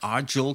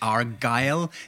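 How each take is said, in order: First: The name is read with German-style sounds. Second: The name is said with Scottish pronunciation. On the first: The speaker calls it wrong. "das ist auch falsch" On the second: The speaker calls it right. "Das ist natürlich Argyll, die Küste, die Westküste von Schottland"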